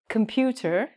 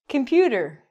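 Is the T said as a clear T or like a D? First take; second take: clear t; like d. First: The middle T is said as a clear T sound. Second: The middle T is said like a soft D sound. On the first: "We don't say computer, as we should" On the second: "We say computer"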